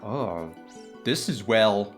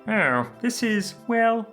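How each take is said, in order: First: It is said in his normal voice. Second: It is said in a Kermit-like voice.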